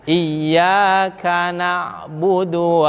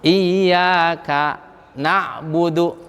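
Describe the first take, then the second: First: It is recited smoothly without any break. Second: It has a brief silent stop without breath. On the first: The speaker calls it right. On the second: The speaker calls it wrong.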